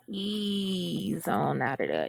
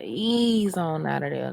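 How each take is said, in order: First: Slow, drawn-out "to ease on out of there"; lingering, slow phrasing. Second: Said in the usual way. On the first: Shown as a demonstration. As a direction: stretch "ease on out of there" out lazily. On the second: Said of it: "to ease on out of there".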